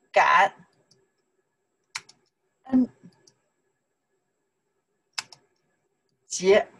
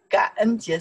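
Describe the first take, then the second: First: 感, 恩, 节 each alone with long pauses; syllable by syllable. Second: Said in the usual way. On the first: Shown as a demonstration. Teacher teaching Thanksgiving in Chinese, one syllable at a time. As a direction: isolate each syllable for learners.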